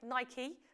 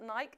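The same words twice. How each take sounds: First: It is said with the American pronunciation. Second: It is said without the American pronunciation. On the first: The speaker calls it right. "as the Americans say" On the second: The speaker calls it wrong. "not Nike"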